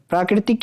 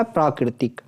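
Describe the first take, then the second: First: "प्राकृतिक" with "prai" for "praa"; wrong first vowel. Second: "प्राकृतिक" opening on long "praa". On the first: Teacher showing students the mistake, प्राकृतिक said "praikritik". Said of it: "ये प्राकृतिक नहीं होता". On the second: Teacher giving students the correction, प्राकृतिक with long "praa". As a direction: say प्राकृतिक as "praakritik", lower and softer. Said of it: "प्रा हो गया". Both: Shown as a demonstration.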